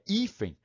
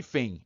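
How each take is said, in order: First: The stress is on the first syllable. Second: The stress is on the last syllable. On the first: The speaker calls it right. "é hífen, com acento" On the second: The speaker calls it wrong. "Nada de hífen"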